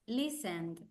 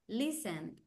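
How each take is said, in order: Both takes have the same delivery.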